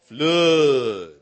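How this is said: It is said in a drawn-out Texan accent.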